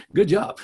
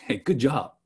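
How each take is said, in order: First: Sarcastic praise with a punch on good; pointed mock praise. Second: Dry sarcastic praise, falling flat; deadpan mock compliment. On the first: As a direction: lean into the fake compliment. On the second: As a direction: say it like you don't mean it. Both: Shown as a demonstration. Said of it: "It's sarcasm".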